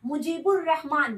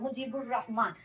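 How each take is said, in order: First: मुजीबुर रहमान, ब straight into र with no l sound; pronunciation demo. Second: मुजीबुर रहमान, ब then a direct र, no l; pronunciation demo. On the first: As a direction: drop the lām in मुजीबुर रहमान. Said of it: "बे के बाद लाम का pronounce नहीं हुआ है". (मुजीबुर रहमान, बिना लाम) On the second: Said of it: "direct रे बोल रहे हैं". (मुजीबुर रहमान, सीधे रे) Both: Shown as a demonstration.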